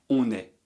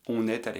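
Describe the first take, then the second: The two takes are said the same way.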